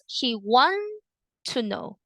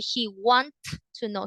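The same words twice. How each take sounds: First: The T of want is dropped. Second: The T of want is clearly pronounced. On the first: The speaker calls it right. "he doesn't pronounce the T at the end" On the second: The speaker calls it wrong. "He doesn't say"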